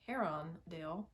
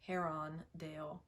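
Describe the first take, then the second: Both takes have the same delivery.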